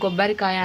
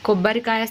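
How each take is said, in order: First: The word begins with a g sound. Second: The word begins with a k sound. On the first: The speaker calls it wrong. "గొబ్బరికాయ అని పలకడం" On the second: The speaker calls it right. "కొబ్బరికాయ స్థానంలో"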